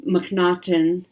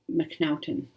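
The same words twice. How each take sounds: First: McNaughton said slowly with a German-style "nah" vowel, mək-NAH-tən; German-style pronunciation. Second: Said in the usual way. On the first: Real, not acted. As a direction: say McNaughton as if it were a German surname, slow and careful. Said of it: "put a German pronunciation on her last name". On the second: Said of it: "I don't know why I put a German pronunciation".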